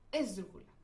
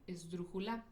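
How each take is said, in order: First: The stress is on the fourth-from-last syllable. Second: The stress is on the final syllable. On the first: "Si se lo pongo en la ante antepenúltima" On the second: "Si yo le pongo el acento en la última sílaba"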